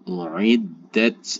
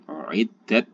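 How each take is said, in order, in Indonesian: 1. T di akhir dilepas dengan desis. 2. T di akhir dilepas tanpa desis. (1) "harus ada desisnya" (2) "jangan uiddat ya"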